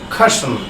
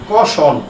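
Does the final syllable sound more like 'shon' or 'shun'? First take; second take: shun; shon. First: The last syllable sounds like 'shun'. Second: The last syllable sounds like 'shon'. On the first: This is the way it should be said now. The speaker calls it right. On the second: This is the way it used to be said. The speaker calls it wrong. "আমরা আগে বলতাম"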